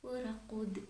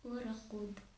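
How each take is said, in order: Both takes have the same delivery.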